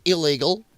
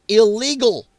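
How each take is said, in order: First: Said in the usual way. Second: "Illegal" punched louder and held hard; stressed correction. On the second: Shown as a demonstration. Host insists on the missing word, loud stressed "Illegal". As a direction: lean hard on "Illegal" with scorn. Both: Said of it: "I love how they forget that word".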